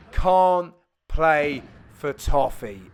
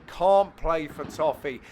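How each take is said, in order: First: "can't play for toffee" drawn out very slowly; slow quoted phrase. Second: "Can't play for toffee" slow and spelled out; Cockney saying. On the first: Telling viewers what to comment: very slow "can't play for toffee". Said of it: "then just put". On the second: Teaching viewers his saying: slow "Can't play for toffee". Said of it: "another Cockney saying here". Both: Shown as a demonstration.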